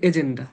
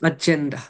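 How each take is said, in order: First: The first vowel sounds like 'eh'. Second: The first vowel sounds like 'ah'. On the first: The speaker calls it wrong. "আমরা দেশে উচ্চারণ করে হচ্ছে এজেন্ডা" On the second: The speaker calls it right. "আসলে এটা হচ্ছে আজেন্ডা"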